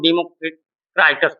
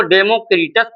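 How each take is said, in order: First: "डेमोक्राइटस" with a long "eye" in "क्राइ"; alternative pronunciation. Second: "डेमोक्रिटस" with a short i in "क्रि"; alternative pronunciation. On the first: Teacher showing how others read it, "डेमोक्राइटस" with an eye sound. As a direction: say "डेमोक्राइटस", third syllable like "cry". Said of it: "कुछ लोग डेमोक्राइटस पढ़ते हैं". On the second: Teacher showing how some read it, "डेमोक्रिटस" with short i. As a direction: say "डेमोक्रिटस", third syllable like "krit". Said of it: "कुछ लोग इसको डेमोक्रिटस पढ़ते हैं". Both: Shown as a demonstration.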